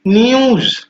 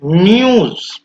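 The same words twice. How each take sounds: First: "न्यूज" said higher as a clear model; teacher demonstrating "न्यूज" with the "यू" sound; model pronunciation. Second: "न्यूज" repeated, raised and careful; teacher repeating the word "न्यूज" for pupils; model pronunciation again. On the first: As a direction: pronounce "न्यूज" carefully for the class. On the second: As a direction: repeat "न्यूज" clearly with the "यू" sound. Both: Shown as a demonstration. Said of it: "डीयू".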